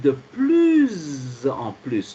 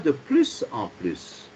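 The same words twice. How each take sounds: First: The first plus links with a z sound. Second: The first plus ends with an s sound. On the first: The speaker calls it right. "le S est prononcé comme la lettre Z" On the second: The speaker calls it wrong. "on ne dit pas de plus en plus"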